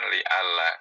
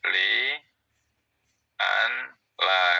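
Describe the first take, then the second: First: The n merges into a doubled l. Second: The n is sounded before the l. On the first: It is how the phrase is actually recited. "dibacanya kan li ala karena langsung masuk idgham" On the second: It spells out the underlying written letters. "kalau mau ditulis seperti itu"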